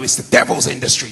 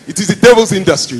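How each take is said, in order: First: It is said in the speaker's usual accent. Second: It is said in an African accent.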